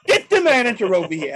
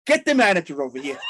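First: Louder repeat of the demand, laughing through it. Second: Firm, raised demand for the manager. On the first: Retelling his store meltdown, louder and laughing. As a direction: push harder the second time, half laughing. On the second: Customer at the toy store counter demanding the manager, firmly raised. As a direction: insist on it firmly, a little raised. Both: Retold or imitated. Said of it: "I go like that".

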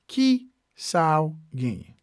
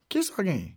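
First: "Ki... sa ou... genyen", with clear gaps; word by word. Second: Said in the usual way. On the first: Shown as a demonstration. Teacher repeating a Creole phrase for learners, word by word. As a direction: space out each piece for learners.

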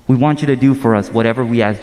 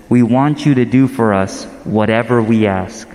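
First: Brisk, run-together repeat of the request; quick repeated quote. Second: Said in the usual way. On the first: Acted. Preacher repeats the disciples' request to the congregation, quickly. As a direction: rattle the request off quickly, without pauses. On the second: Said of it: "'Teacher,' they said".

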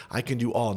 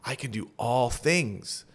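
First: "all" held and pressed as the key word; stress on all. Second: Slow, word by word, landing hard on "things"; slow stress on things. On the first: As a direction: lean on "all", set it against "some". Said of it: "not some". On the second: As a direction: spell out "I can do all things" slowly and weigh "things". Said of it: "emphasize the word". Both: Shown as a demonstration.

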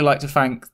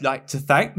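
First: "thank" said as "fank"; TH slipping into F in "thank"; F sound in thank. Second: Said in the usual way. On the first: Real, not acted. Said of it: "that was an F in that thank".

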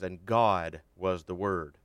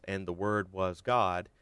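First: God placed first and hit louder, slowly; stress on God. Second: Said in the usual way. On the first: Shown as a demonstration. Preacher showing the Greek word order, slow emphasis on God. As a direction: lean on God, slow and weighty. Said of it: "John wanted to emphasize the godness". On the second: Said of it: "in the Greek it actually says".

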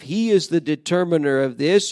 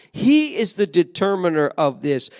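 First: Is lifted with a rise; affirming that He truly is; stress on IS. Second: HE punched at the start; He is the one who decides; stress on HE. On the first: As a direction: lean on the word is, not He. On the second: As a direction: hit the word He, the rest even. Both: Shown as a demonstration. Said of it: "He puts the focus on himself".

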